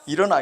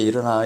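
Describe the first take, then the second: First: It is said sharply and urgently. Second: It is said softly and gently. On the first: The sleeper is roused roughly, like a kick. "빨리 일어나라고" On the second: The sleeper is roused kindly with a hand. "손으로 그냥 부드럽게"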